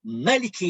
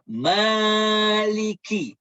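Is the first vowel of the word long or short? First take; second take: short; long. First: The first vowel is kept short. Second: The first vowel is held long. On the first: "boleh baca cara kedua" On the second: "dia ma tu dibaca panjang"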